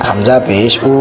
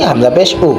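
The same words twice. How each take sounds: First: The phrase is said slowly. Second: The phrase is said quickly. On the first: The speaker calls it wrong. "এভাবে যদি আমরা বলি তাহলে এটা ভুল হবে" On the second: The speaker calls it right. "আমরা এটাকে তাড়াতাড়ি বলবো"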